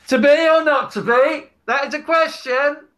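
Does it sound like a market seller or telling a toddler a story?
market seller. It is called out like a market seller.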